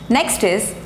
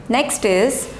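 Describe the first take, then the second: Both takes have the same delivery.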